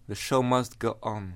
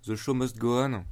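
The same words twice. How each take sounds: First: The English phrase in a put-on English accent; hammed-up English accent, a quacky duck voice; mock perfect English accent. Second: Said in the usual way. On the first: Shown as a demonstration. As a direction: show off a self-mocking English accent, comes out duck-like. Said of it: "avec, euh, mon accent anglais, euh, parfait". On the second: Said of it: "avec, euh, mon accent anglais".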